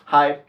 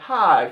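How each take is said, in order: First: It sounds flat and emotionless. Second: It sounds eager and relieved. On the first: The speaker is only introducing themselves. "it's like emotionless" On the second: The speaker has been looking for this person. "finally I found you"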